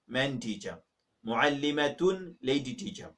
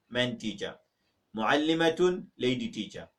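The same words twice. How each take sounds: The two takes are said the same way.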